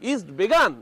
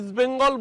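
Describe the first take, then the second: First: The second word is pronounced 'Begaan' without 'ng'. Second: The second word is pronounced 'Bengal' with 'ng'. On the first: Someone else mangled the club's name. The speaker calls it wrong. "বলছেন ... east বেগান" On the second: This is the club's real name. The speaker calls it right. "আমাদের প্রাণপ্রিয় east বেঙ্গল"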